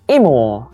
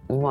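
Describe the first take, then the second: First: It is said with Busan men's intonation. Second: It is said without the Busan intonation.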